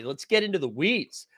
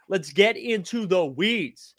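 First: Said in the usual way. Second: Slow, every word leaned on; slowed, emphatic repeat; drawn-out emphasis. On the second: Shown as a demonstration. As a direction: stretch it out to drive the point home. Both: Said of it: "spell it out for me".

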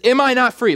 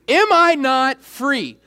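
First: Said in the usual way. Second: "Am I not free" drawn out slowly, pitched high; emphatic slow repeat. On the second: Shown as a demonstration. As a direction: stretch out each word of "Am I not free".

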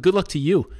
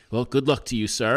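First: Higher-pitched mocking comeback; indignant echo. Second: Said in the usual way. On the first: Defendant throwing the official's good wishes back, high-pitched and mocking. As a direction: toss the farewell right back.

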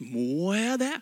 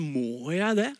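First: A grudging question with a rising end; reluctant question. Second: A grudging, half-whining question; reluctant sigh. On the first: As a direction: mimic someone balking at a challenge. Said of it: "Når vi blir utfordret på noe nytt". (motvillig spørsmål) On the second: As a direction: mimic a reluctant listener. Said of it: "responsen hos oss er ofte sånn". (motvillig, litt sutrete spørsmål) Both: Retold or imitated.

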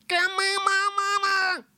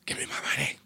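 First: Squeaky high demand, a bit slow. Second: Hushed whisper of the demand. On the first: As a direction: squeal it like a cartoon. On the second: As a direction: breathe it out as a whisper. Repeated as whisper. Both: Acted.

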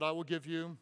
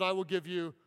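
First: Said in the usual way. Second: I will give you, the "I" pressed louder; emphatic repeat. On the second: Shown as a demonstration. Pastor repeating Jesus' promise for the crowd, louder and stressed. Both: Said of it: "say it again".

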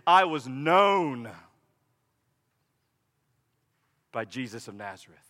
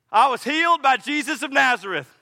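First: The new story, known held long and tender; stress on known. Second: Healed lifted and pushed a bit louder; the old story, healed said up front; stress on healed. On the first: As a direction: linger on known and let the rest fall away to a hush. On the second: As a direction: lean on the word healed. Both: Shown as a demonstration. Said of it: "Bartimaeus' story from this point forward will be this".

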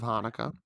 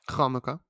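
First: Said in the usual way. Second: "Hanukkah" opened with a throaty kh; guttural Hanukkah. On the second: Shown as a demonstration. Correcting own word to the Hebrew way, "Hanukkah" with guttural kh. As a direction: scrape the H of "Hanukkah" at the back of the throat.

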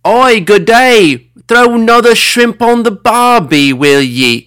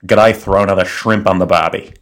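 First: Loud, high-pitched Australian caricature; over-the-top Australian yell; Australian accent. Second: Understated, calm Aussie delivery; unforced Australian accent at an everyday pitch. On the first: Pretend. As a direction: holler it in a hammed-up Aussie accent. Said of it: "might offend with this portrayal". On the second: Shown as a demonstration. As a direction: demonstrate an Australian accent, calm and almost staccato. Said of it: "very calm, almost borderline staccato of the Australian accent".

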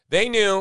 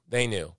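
First: "They knew" punched higher and firm; emphatic accusation. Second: "They knew" dropped lower and softer; quiet final repeat. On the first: Host condemning the regime's knowing silence, emphatic. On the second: Host closing his repeated accusation, quiet and grave. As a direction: let "They knew" fall away quietly. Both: Acted.

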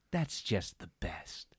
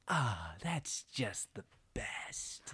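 First: Low, slow, softly savored; drawn-out, hushed gloating; twisted satisfaction. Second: Slow, breathy whisper of relish; hushed, drawn-out blissful gloat; twisted satisfaction. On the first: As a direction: relish it quietly and slowly. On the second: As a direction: whisper it, savoring every word. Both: Retold or imitated. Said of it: "twisted display of satisfaction on her face".

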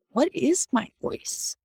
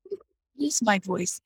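First: Slow, higher, with weight on IS; "What is my voice?" with IS stretched and lifted; searching self-question. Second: Said in the usual way. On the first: Shown as a demonstration. Asking the group to step back, slow and searching. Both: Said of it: "to be able to step back and say".

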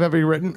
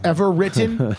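First: "ever" slipping into "every"; tongue-tied slip. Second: Said in the usual way. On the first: Real, not acted. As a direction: stumble "ever written" into "every written". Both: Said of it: "cut out his own tongue".

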